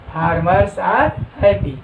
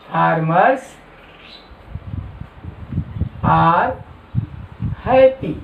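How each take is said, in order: First: Said in the usual way. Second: "Farmers", "are", "happy" with long gaps between; word-by-word dictation. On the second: Shown as a demonstration. Teacher giving the English translation to note down, word by word.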